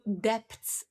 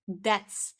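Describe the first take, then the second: First: The word is said with a b sound. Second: The word is said with no b sound. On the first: The speaker calls it wrong. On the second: The speaker calls it right.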